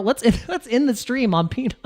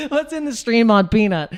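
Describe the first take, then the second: First: Laughing through it. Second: Said in the usual way. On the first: Real, not acted. Laughs mid-phrase before the retake.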